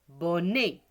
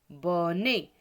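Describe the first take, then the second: Both takes have the same delivery.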